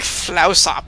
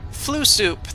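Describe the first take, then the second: First: It sounds like one word, flausop. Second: It sounds like the words flu soup. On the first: The speaker calls it right. "it's like Flausop or something" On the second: The speaker calls it wrong. "That's what I'm gonna call that planet. I know that's not how it's supposed to be"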